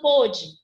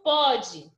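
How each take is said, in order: First: The first vowel is closed. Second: The first vowel is open. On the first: It is the past tense of the verb. "timbre fechado" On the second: It is the present tense of the verb. "timbre aberto"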